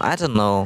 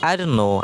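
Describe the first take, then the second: First: The t of don't is silent. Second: The same.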